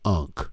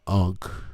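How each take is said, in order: First: The word is said with a short 'uh' vowel. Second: The word is said with an open 'ah' vowel.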